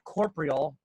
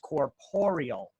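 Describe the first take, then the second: First: The word is said without the extra vowel. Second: The word is said with an extra vowel. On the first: The speaker calls it wrong. "It's not corporeal" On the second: The speaker calls it right. "There's an extra O in there. It's corporeal"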